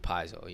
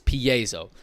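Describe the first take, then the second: First: The word is said the way it looks spelled. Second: The word is said in its standard form. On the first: The speaker calls it wrong. "it looks like it should be piezo" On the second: The speaker calls it right. "but it's piezo"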